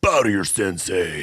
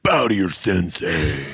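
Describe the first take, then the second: First: Lightly voiced cocky martial arts instructor; Rex Kwon Do impression. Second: Slow, lightly voiced cocky sensei; Rex Kwon Do impression. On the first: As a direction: bark it like a self-proclaimed sensei. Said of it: "You sound like Rex Kwon Do". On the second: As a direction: command it slowly like a dojo instructor.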